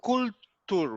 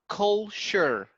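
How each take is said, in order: First: The ending sounds like the word 'tour'. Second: The ending sounds like the word 'sure'. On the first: The speaker calls it wrong. "we don't say" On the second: The speaker calls it right. "It's culture"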